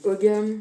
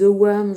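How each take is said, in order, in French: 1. La consonne du milieu est un son g. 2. La consonne du milieu est un son w.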